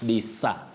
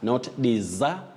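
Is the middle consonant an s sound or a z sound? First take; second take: s sound; z sound. First: The middle consonant is a voiceless s sound. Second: The middle consonant is a voiced z sound. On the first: The speaker calls it right. "what we call now the voiceless sound s" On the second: The speaker calls it wrong.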